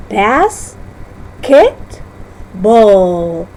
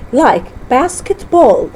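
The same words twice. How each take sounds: First: "basketball" stretched very slowly, syllable by syllable; slow syllable split. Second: Said in the usual way. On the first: Shown as a demonstration. Teacher slows the word down to show its syllables. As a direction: draw out each part of "basketball". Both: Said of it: "The break will occur at a compound".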